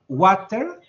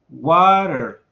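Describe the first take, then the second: First: It is said with a British accent. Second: It is said with an American accent.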